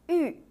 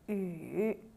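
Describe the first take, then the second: First: The pitch falls sharply from high to low. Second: The pitch dips low then rises.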